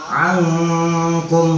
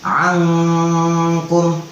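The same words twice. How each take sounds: The two takes are said the same way.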